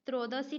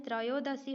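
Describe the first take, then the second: First: "त्रयोदशी" shortened to tro-da-si; wrong form trodashi. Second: "त्रयोदशी" in full, tra-yo-da-si; correct form trayodashi. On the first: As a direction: drop the ya syllable from "त्रयोदशी". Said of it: "त्रयोदशी नहीं होता है". ("त्रयोदशी" को त्रो-दशी बोलें) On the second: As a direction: sound the yo clearly in "त्रयोदशी". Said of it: "त्रयोदशी होता है". ("त्रयोदशी" में त्र-यो अलग बोलें) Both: Shown as a demonstration.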